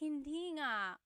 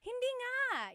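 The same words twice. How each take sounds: First: It is said in a dismayed, sympathetic tone. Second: It is said in an excited, delighted tone. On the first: The news is bad. "oh no, I lost my cat. You're like" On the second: The news is good. "Or something really exciting like, I got a raise. You're like"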